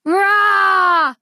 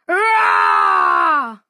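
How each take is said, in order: First: A higher, louder, playful child's mock roar; little girl's roar. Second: A very deep, loud monster roar, far lower than the narrator. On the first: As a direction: roar like a small girl pretending to be a monster. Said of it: "said Posy". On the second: Acted. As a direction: roar like a big furry monster to frighten Posy. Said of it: "said the monster".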